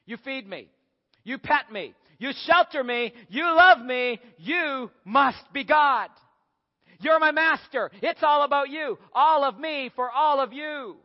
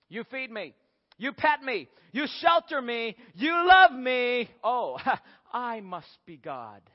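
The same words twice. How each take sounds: First: Worship your master, building higher and louder; devoted dog, rising to loud high awe; adoring dog. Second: Cat working out its own importance, ending with a chuckle; self-satisfied cat. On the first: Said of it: "The dog says". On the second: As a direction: build up, then drop into slow, smug realization. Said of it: "cats say almost the very same thing". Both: Acted.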